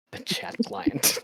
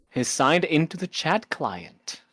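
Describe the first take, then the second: First: Slow, hushed mock-dramatic whisper. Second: Said in the usual way. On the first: Shown as a demonstration. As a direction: whisper it slowly for effect. Rereads phrase for comic effect.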